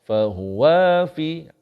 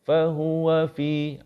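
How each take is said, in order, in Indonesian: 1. Suku kata 'wa' dipanjangkan. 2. Suku kata 'wa' pendek dan halus. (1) "Kalaulah kita terlewat sikit. ... Salah. Wa tu jadi dua harkat" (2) "Baru, baru lancar"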